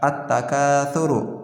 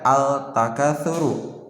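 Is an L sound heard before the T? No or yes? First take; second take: no; yes. First: The L merges into a doubled T sound. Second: The article is said with a clear L sound. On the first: The speaker calls it right. "melainkan dilangsungkan" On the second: The speaker calls it wrong. "lamnya itu dibaca tidak dibaca"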